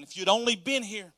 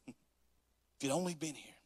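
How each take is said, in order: First: Tearful loud plea. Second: Mournful plea. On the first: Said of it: "She was crying". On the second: Mary's plea, slow and different. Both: Acted.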